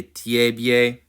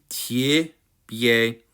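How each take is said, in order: First: "tiebie" as tyeh-byeh; unreduced first vowel in "tiebie"; as-written vowels. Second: "tiebie" as tyih-BYEH; careful tyih, then byeh in "tiebie"; spoken-language vowel. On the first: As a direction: say "tiebie" with full yeh in both syllables. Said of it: "it is okay". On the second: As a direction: reduce the first vowel of "tiebie" to short i. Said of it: "much more, uh, accurate". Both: Shown as a demonstration.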